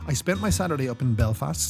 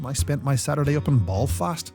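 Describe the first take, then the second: First: It is spoken in the speaker's usual accent. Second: It is spoken in a put-on Northern Irish accent.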